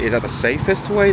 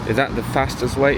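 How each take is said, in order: First: Musing, lifting "safest" against the alternative; contrastive question. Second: Musing, leaning on "fastest"; pondering question. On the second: Weighs fastest against safest. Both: Real, not acted.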